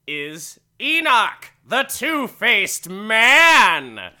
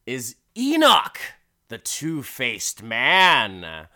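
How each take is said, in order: First: Very loud, high, hugely drawn-out billing; booming announcer. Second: Drawn-out, louder introduction of the star; announcer's billing. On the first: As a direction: belt out the headliner's introduction. Repeats the billing, even bigger. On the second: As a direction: announce the sideshow's headline act. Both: Acted.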